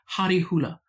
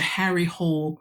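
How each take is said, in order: First: The surname is said with two syllables, like hula. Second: The surname sounds like the English word hole. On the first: "how it would be pronounced in Norwegian" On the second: "where we would say in English"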